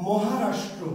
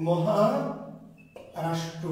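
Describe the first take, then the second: First: Said in the usual way. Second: Maharashtra stretched out very slowly, syllable by syllable; slow, drawn out. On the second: Shown as a demonstration. Teacher repeating Maharashtra for students, very slowly drawn out. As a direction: spell out Maharashtra slowly so students catch the name.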